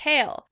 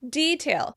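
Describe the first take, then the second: First: It is said with an American pronunciation. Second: It is said with a British pronunciation. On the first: "In American English, we tend to pronounce it detail" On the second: "In British English, they tend to pronounce it detail"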